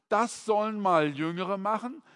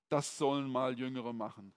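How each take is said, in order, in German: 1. Der Ton klingt ruhig, positiv und zielgerichtet. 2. Der Ton klingt abweisend und bequem faul. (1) "eigentlich muss es aber heißen" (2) "oft hat es ja den Unterton zu sagen, wo ist mein Fernsehsessel und die Fernbedienung?"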